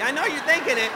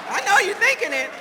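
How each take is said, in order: First: Louder, pointed; loud teasing. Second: Much higher and louder, stress on thinking; near shout. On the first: To the audience, teasing them loudly. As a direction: call out the crowd. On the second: To the audience, shouting the tease even louder. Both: Shown as a demonstration. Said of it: "repeats it louder".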